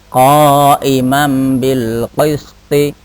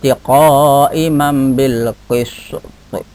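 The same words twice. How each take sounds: First: The last word ends with a short i vowel. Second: The last word ends on a stopped, bouncing t. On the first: "Itu kalau dibaca aslinya" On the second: "di qalqalah kubro maka dibaca"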